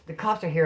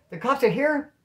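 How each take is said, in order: First: Said in the usual way. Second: High, incredulous echo question; mock startled question, pitched up; retold alarmed disbelief. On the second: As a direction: repeat the news in acted shock.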